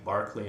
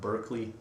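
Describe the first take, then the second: First: The name is pronounced the Irish way. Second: The name is pronounced the American way. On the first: "which is why I'm saying Berkeley" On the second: "and not Berkeley"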